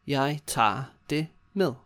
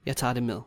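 First: Word by word. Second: Said in the usual way. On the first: Shown as a demonstration. Teacher modelling the takeaway reply, word by word. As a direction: give each word room for learners.

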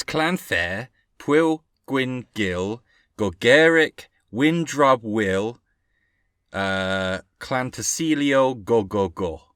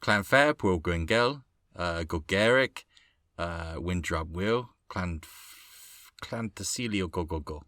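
First: Slow, deliberate "Clanfair, Pwyl Gwyngyll", one piece at a time; careful Welsh attempt. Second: Hesitant go at "Clanfair, Pwyl Gwyngyll", trailing off quieter and lower; faltering Welsh attempt. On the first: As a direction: sound out "Windrub Will" and "Clan Tasilio Go Go Go" slowly and clearly. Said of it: "I'm trying to do it properly". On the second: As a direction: feel your way softly through "Clan Tasilio Go Go Go", restarting as needed. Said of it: "I can't get it right". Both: Shown as a demonstration.

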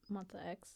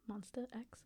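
First: Said in the usual way. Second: "Monsta X" said over softly with a clear "st"; softly re-pronounce "Monsta X", ending Monsta in "-stuh"; corrected pronunciation. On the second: Shown as a demonstration. Correcting the K-pop group's name, "Monsta X" carefully re-pronounced. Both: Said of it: "I should say".

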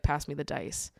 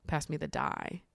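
First: "dice" said with a final s, taɪs; saying "dice" as the forbidden plural. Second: "die" said without the s, just taɪ; the correct singular "die", said softly. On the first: Kid asking for the dice in math class, saying dice. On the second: Kid correcting to die in math class, softer. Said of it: "you had to say die instead". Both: Shown as a demonstration.

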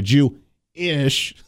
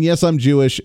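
First: "Jew-ish" slowly broken in two; "Jew-ish", slow, with the "ish" set apart; split word. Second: Said in the usual way. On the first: Retold or imitated. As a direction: say "Jew-ish" with a gap before a drawn-out "ish". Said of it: "how he's trying to put it". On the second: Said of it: "By just openly saying".

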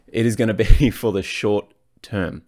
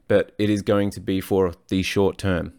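First: Said in the usual way. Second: Put-on slips into an American accent mid-sentence; lightly American-accented line; accidental American accent. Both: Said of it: "Don't know why I went American on that one".

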